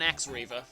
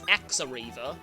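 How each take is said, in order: First: The two words are joined with no extra syllable. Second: An extra 'a' syllable links the two words.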